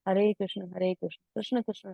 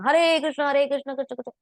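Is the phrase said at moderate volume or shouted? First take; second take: moderate; shouted. First: It is said at a calm, moderate volume. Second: It is said loudly, almost shouted. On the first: It is heard by oneself and those nearby without disturbing. The speaker calls it right. "At least उतना तेज बोले कि आपके कान जरूर सुने" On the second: It may irritate others nearby. The speaker calls it wrong. "ऐसे नहीं चिल्ला चिल्ला बोला"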